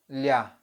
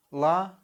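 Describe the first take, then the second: First: "lia" with a palatalized L; soft L. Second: "La" with a hard, unpalatalized L. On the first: Teacher shows learners the difference, soft L in "lia". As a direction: soften the L in "lia" towards a y. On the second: Teacher shows learners the difference, hard L in "La". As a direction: say "La" with no y after the L. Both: Shown as a demonstration. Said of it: "soft and hard pronunciation".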